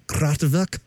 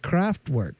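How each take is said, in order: First: "Kraftwerk" with a German vowel in the second syllable; attempted German pronunciation. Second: Said in the usual way. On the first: Shown as a demonstration. Host checking the band name's correct pronunciation, German-style "Kraftwerk". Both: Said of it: "the correct pronunciation".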